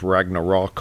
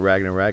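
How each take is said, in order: First: The last syllable sounds like 'rock'. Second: The last syllable sounds like 'rack'. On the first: This is the standard pronunciation. The speaker calls it right. "It's Ragnarok" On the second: This is the speaker's own habitual pronunciation. The speaker calls it wrong. "I call it Ragnarak"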